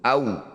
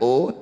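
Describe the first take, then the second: First: The vowel glides from a to u. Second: The vowel is one steady o sound. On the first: The speaker calls it right. "Berikan huruf vokal u ketika baca waw sukun. Au" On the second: The speaker calls it wrong. "bukan o"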